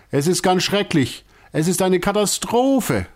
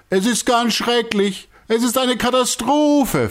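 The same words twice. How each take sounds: First: High, wailing lament of a distraught ringmaster; upset circus director. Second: Even higher despairing wail; distraught director. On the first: Circus director wailing to his gathered troupe, high and distraught. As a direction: moan it like a man at his wits' end. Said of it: "sagt Herr Alasi immer wieder". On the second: Director answering everyone who asks, high despairing wail. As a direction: cry it out, beside himself. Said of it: "von sich gibt". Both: A narrator's reading.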